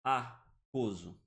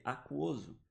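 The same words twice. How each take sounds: First: "aquoso" drawn out with the U dropped, a-KO-zo; silent U. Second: "aquoso" read slowly with the U sounded, a-KUO-zo; spoken U. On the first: Teacher giving the wrong option, U dropped. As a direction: say "aquoso" slowly without the U. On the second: Teacher asking class how to read it, U sounded. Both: Shown as a demonstration. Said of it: "Como é que a gente lê?".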